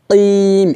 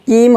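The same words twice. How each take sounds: First: কিম with a back-throat q and long vowel; deep Q sound. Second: কিম with an ordinary front k; plain K mistake. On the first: Teacher showing the word's ending, কিম with Arabic q. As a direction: say কিম as a stretched "qiim". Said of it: "এভাবে". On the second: Teacher warning against an error, কিম with a plain k. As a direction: keep the k of কিম light, as "kiim". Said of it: "হবে না". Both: Shown as a demonstration.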